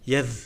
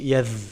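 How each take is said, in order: The two takes are said the same way.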